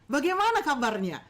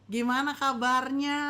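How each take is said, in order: First: It is said with lively, energetic intonation. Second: It is said flatly, like ordinary talk. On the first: The speaker calls it right. "disampaikannya dengan intonasi, dengan anointed, dengan pengurapan" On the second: The speaker calls it wrong. "seperti kayak ngomong biasa"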